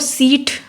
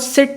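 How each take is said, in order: First: The vowel is stretched into a long 'ee' sound. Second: The vowel is a short plain 'i' sound. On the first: "सिट को सीट बोल देते हैं" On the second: "वो सिट नहीं बोलते"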